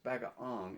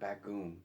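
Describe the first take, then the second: First: The middle vowels sound like 'ah-o'. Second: The middle vowel sounds like a long 'oo'. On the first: The speaker calls it right. "It's bagaong" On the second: The speaker calls it wrong. "not bagoong"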